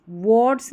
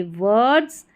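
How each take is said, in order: First: "वर्ड्स" with an O vowel, like "wots"; "वर्ड्स" rounded to an "or" sound; wrong pronunciation. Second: "वर्ड्स" with a neutral "er" vowel, vurds; "वर्ड्स" with an unrounded schwa; correct pronunciation. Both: Shown as a demonstration. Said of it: "वर्ड्स नहीं पढ़ेंगे".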